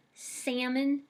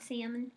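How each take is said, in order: First: Salmon with a flat a and a nasal first vowel; salmon said her way. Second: Salmon with a plain a, said softly as the wrong way. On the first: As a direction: say salmon as sæ̃mən, no l. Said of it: "I say salmon, not salmon". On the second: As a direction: say salmon as sæmən, the version she rejects. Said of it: "not salmon". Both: Shown as a demonstration.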